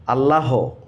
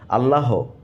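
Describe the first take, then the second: The two takes are said the same way.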